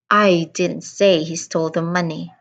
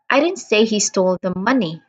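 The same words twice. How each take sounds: First: The word I carries the main stress. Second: The word money carries the main stress. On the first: "I emphasized on the first word, I" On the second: "I am stressing on the word money"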